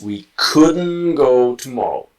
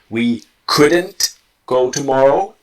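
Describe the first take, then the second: First: The T is dropped and the words are linked. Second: The T is pronounced and the words stay separate.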